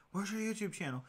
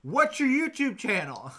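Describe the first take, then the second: First: Higher-pitched mock kid question, not shouted; imitated pestering kids. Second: High, loud, drawn-out mock yell; imitated kids' yell. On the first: Kids ask him every time, imitated higher-pitched pestering. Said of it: "they would always come up and ask". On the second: Kids yelling at him through the windshield, imitated loud yell. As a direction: yell it slowly like demanding kids. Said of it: "yell at me".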